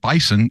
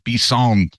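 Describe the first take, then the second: First: The stress is on the first syllable. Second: The stress is on the final syllable.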